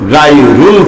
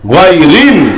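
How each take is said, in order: First: The second syllable has a 'u' vowel. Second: The second syllable has an 'i' vowel. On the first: The speaker calls it wrong. "রুল হবে না" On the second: The speaker calls it right. "হবে রিল"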